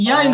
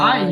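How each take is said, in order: First: The syllable begins with a y sound. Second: The syllable begins directly with the vowel. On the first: The speaker calls it wrong. "ইয়াই নয়" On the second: The speaker calls it right.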